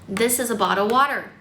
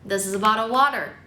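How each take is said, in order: Both takes have the same delivery.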